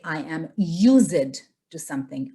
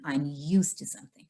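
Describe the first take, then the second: First: "used" broken into two syllables, "use-id"; two-syllable mispronunciation. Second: "used" as one syllable, "yoost"; correct one-syllable pronunciation. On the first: Teacher showing students' E D mistake, "used" split in two syllables. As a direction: say "used" wrongly as "yoo-zid", sounding the ending. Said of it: "break them into two syllables". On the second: Teacher modelling the E D word, "used" in one syllable. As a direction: say "used" unbroken, its ending run into "to". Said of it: "this is not your accent problem". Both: Shown as a demonstration.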